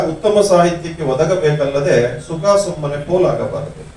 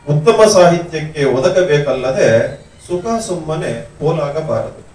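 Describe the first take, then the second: No difference in how they are said.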